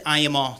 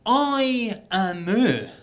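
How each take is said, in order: First: Said in the usual way. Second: "I am a" stretched out very slowly, each word held; baffled, drawn-out echo. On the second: Retold or imitated. English pal repeating the phrase back, "I am a" slowly stretched. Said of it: "he pulled me up on it".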